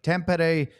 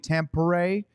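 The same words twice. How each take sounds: First: The name is said with a non-American pronunciation. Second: The name is said with an American pronunciation. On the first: "but Tampere" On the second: "The closest English would probably be Tampere, if you want to say it in a real Americanized"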